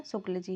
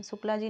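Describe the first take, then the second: First: शुक्ल without the long final aa; corrected surname ending. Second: शुक्ला with a long final aa; wrong surname ending. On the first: Teacher correcting the name, शुक्ल with a short ending. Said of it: "शुक्ला जी नहीं है, शुक्ल जी हैं". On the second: Teacher citing the mistaken name, शुक्ला ending in long aa. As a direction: say शुक्ला, drawing the last vowel to a full "aa". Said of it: "शुक्ला जी नहीं है". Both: Shown as a demonstration.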